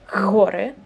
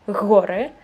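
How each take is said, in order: No difference in how they are said.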